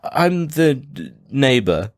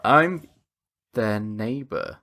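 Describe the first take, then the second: First: Slow, halting fib, starting high; hesitant, badly faked cover story; unconvincing lie. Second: Slow, dropping low and soft after a pause; hesitate, then slide out the fib; shifty, drawn-out cover story; obvious lie. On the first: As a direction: stall before landing the made-up word. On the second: Acted. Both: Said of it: "it sounds like you're just lying".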